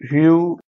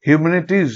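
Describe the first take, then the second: First: "humanities" in pieces with long pauses; broken into syllables. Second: Said in the usual way. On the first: Shown as a demonstration. Teacher breaking the word by syllables, long gaps between them. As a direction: sound out "humanities" one syllable at a time. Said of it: "ভাঙতে পারবো syllable অনুযায়ী". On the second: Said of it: "শব্দটা আমরা ভাঙতে পারবো".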